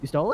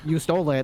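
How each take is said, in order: First: The voice rises at the end. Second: The voice falls at the end. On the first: It is asked as a question. "there was definitely upward inflection at the end" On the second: It is stated as a fact. "I didn't say like you stole it"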